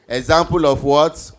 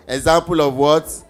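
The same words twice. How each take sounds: The two takes are said the same way.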